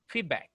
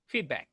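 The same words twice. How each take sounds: First: The vowel is said as a small A. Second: The same.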